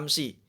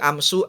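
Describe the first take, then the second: First: The word ends with an i vowel. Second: The word ends with a u vowel. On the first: The speaker calls it right. "dibaca kasroh" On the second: The speaker calls it wrong. "Nggak boleh"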